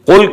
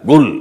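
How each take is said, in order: First: The word begins with a k sound. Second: The word begins with a g sound.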